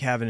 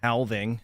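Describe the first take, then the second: First: The word is said without an L sound. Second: The word is said with a clear L sound. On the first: The speaker calls it wrong. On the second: The speaker calls it right.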